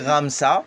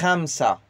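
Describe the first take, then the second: First: The first sound is a plain R. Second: The first sound is scraped in the throat. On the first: "comme si tu dis Ramsa" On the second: "mais tu racles le R"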